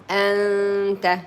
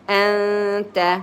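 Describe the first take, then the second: No difference in how they are said.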